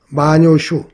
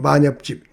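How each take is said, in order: First: The name is pronounced with its Japanese reading. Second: The name is pronounced with its Korean reading. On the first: "일본의 만엽집이라고 있는데요" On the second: "우리 발음으로는"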